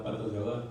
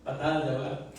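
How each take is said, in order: First: Patas de ahogar, said with the short slip patas; the wrong word patas before correcting; slip of the tongue. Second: Patadas de ahogar, with the full word patadas; corrected word. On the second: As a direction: fix the slip and say patadas. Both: Shown as a demonstration. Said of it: "No, perdón".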